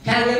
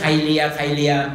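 First: It is said like English 'career'. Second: It sounds like Thai 'krai-lia', with a diphthong. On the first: The speaker calls it right. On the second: The speaker calls it wrong.

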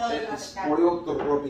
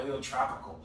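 First: The R is rolled. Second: The R is said without a roll. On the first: The speaker calls it right. "You gotta roll the R in it" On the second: The speaker calls it wrong. "why is he saying it like an American?"

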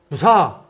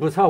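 First: The word is said with raised pitch. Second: The word is said with plain, level pitch. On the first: It asks a pointed question: why? "억양을 높여서 무사 하면 왜냐?" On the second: It is the ordinary word for why. "평범히 쓰면 무사 왜가 되지만은"

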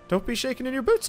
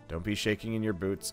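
First: It is said in a put-on cartoon mouse voice. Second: It is said in the speaker's normal voice.

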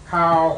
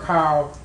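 First: The pitch stays level in the middle range. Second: The pitch stays low across the syllable. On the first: "Now we have a mid-tone" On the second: "low tone"

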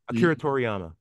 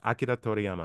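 First: The name is said with an American accent. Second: The name is said with a Japanese accent.

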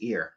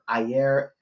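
First: The word is said as one syllable, 'ear'. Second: The word is said with two syllables, 'eye-er'. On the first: "or the pronunciation is ear" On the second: "the watcher Ayer"

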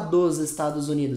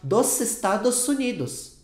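First: The s sounds before vowels are voiced like z. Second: The s sounds before vowels stay voiceless like s. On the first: A native Brazilian speaker says it. "ele não vai falar dos Estados Unidos" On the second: An American learner says it. "S fica com som de S"

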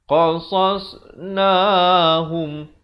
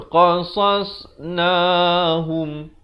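No difference in how they are said.

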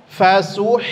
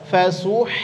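Both takes have the same delivery.

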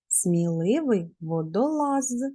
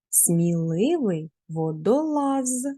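First: The phrase is spoken at a quicker pace. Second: The phrase is spoken at a normal pace.

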